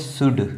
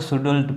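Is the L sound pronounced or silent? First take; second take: silent; pronounced. First: The L sound is silent. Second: The L sound is pronounced. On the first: The speaker calls it right. "एल silent है" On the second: The speaker calls it wrong. "बहुत लोग इसको सुडुल पता नहीं क्या पढ़ देते हैं"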